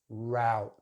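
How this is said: The vowel is the diphthong ow. "They use the ow sound"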